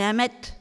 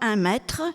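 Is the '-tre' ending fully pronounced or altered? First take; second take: altered; full. First: The final '-tre' ending is not fully pronounced. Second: The final '-tre' ending is fully pronounced. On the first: This is how a local Nantes man says it. "Son palais est allergique à la prononciation tre" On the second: This is the standard French pronunciation. "Il ne dira pas"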